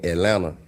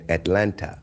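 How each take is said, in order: First: Atlanta is pronounced in a country Southern way. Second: Atlanta is pronounced in a standard enunciated way. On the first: "country by me saying Atlanta" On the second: "instead of saying Atlanta"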